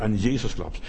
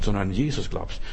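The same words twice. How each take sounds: First: Jesus weighted deliberately, falling; stress on Jesus. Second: Said in the usual way. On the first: Shown as a demonstration. Preacher stressing "Jesus" to the brothers and sisters. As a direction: lean on "Jesus" with a falling tune. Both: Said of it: "und ich betone ganz bewusst".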